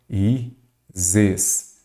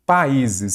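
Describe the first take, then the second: First: "países" said slowly as pa-í-zes; split into syllables. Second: Said in the usual way. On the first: Shown as a demonstration. Teacher showing the stressed hiatus, "países" syllable by syllable. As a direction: leave a clear gap after each syllable of "países". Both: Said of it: "Aí nós já vamos aqui".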